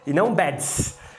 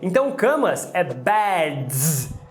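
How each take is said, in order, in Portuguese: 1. A palavra termina com um som de s sibilado. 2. A palavra termina com um som de z vibrado. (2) "também é vozeado"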